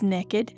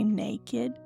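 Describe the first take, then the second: First: The first vowel is a short 'eh' sound. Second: The first vowel is a long 'ay' sound. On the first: Having no clothes on and being up to something. "It's N E K K I D" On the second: Simply having no clothes on. "We don't say naked"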